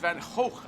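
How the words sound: The name is said the Dutch way. This is how the painter said it himself. The speaker calls it right. "but it's Van Gogh, I believe, in the Dutch"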